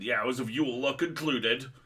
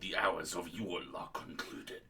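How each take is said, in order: First: The voice is higher and less guttural. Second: The voice is lower and more guttural.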